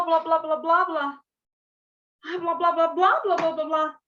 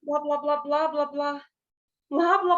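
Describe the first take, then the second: First: "blá, blá, blá" pushed louder and higher, urgent; expressive gibberish. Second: Plain gibberish syllables "blá, blá, blá"; blablação gibberish. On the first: Teacher acting a hurried woman in gibberish. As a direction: gibberish that sounds like someone running late. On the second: Teacher demonstrating gibberish to her class. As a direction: repeat "blá" as nonsense speech. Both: Shown as a demonstration. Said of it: "eu tenho que usar outros meios pra dizer".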